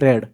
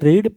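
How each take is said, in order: First: The vowel is short, as in 'bed'. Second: The vowel is long, as in 'seed'. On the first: It is the past form of the verb. "Past form कोंती रेड" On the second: It is the present form of the verb. "Present form को कोंती रीड"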